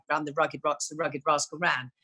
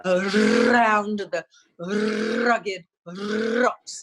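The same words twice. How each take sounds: First: Said in the usual way. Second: Every R rolled long and hard, very slow; rolled R drill. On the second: Shown as a demonstration. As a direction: stretch out a trilled R on "Around", "rugged", "rocks". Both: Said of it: "I would have to do".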